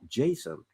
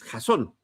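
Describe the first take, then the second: First: The name is pronounced the English way. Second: The name is pronounced the Spanish way. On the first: The speaker calls it wrong. "no Jason ... si viniera del inglés" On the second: The speaker calls it right. "la traducción al español es Jasón"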